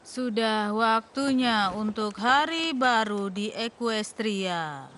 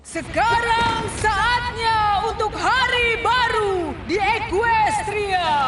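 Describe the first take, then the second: First: It is said in a normal talking voice. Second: It is said in a booming royal voice.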